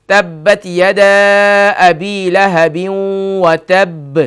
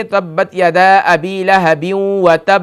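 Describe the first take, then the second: First: Slow, drawn-out chanted recitation of the verse; sung, Quran recitation. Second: Slow verse reading. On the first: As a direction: chant it long and slow like tilawat. (sung, قرآن کی تلاوت، آہستہ اور کھینچ کر) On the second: Recites verse slowly. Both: Shown as a demonstration.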